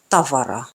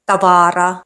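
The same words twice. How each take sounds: First: The stress is on the first syllable. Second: The stress is on a later syllable. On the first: The speaker calls it right. "the stress is on the first syllable" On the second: The speaker calls it wrong. "aren't pronounced"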